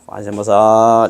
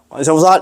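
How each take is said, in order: First: It is said calmly and slowly. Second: It is said hastily and fast.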